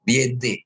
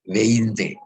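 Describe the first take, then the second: First: The first vowel sound is 'ie', as vien-te. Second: The first vowel sound is 'ei', as vein-te. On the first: The speaker calls it wrong. "Nah ini salah nih ya" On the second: The speaker calls it right. "Yang betul adalah E-nya duluan"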